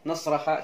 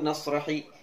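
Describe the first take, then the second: First: The word ends with an 'a' vowel. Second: The word ends with an 'i' vowel. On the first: "jangan dibaca" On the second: "jangan dibaca"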